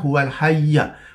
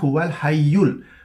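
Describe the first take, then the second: First: The word ends with an a vowel. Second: The word ends with an u vowel. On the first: The speaker calls it right. "yang betul ialah baris atas" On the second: The speaker calls it wrong. "Kebanyakan orang bila membacanya"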